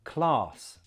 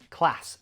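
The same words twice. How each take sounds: First: The vowel is long, unlike in trap. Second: The vowel is short, like in trap. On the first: "southern accents ... we say the ah in these words with an r sound" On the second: "northern accents ... the same as the ah in trap"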